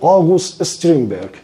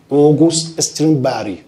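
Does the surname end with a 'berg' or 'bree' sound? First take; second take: berg; bree. First: The surname ends with a hard 'berg' sound. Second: The surname ends with a soft 'bree' sound. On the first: The speaker calls it wrong. "درست تلفظ کن" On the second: The speaker calls it right. "در زبان سوئدی"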